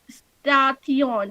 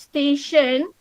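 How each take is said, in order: First: The middle consonant is said as t. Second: The middle consonant is said as sh. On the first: The speaker calls it wrong. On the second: The speaker calls it right.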